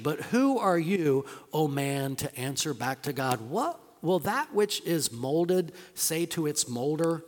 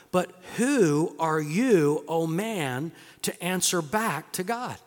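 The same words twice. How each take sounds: First: Said in the usual way. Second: Slow, weighty "But who are you"; slow rebuke. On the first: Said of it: "rereading the verse, calmer". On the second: Acted. Preacher reading Paul's challenge, slow and weighty. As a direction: lean hard on "who" and "back". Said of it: "quoting Paul's rebuke".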